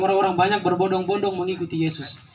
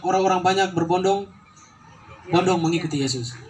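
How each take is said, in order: First: The phrase flows with no pause inside the word. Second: A pause splits berbondong from bondong. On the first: The speaker calls it right. "Kan harusnya" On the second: The speaker calls it wrong. "dia sudah koma tuh"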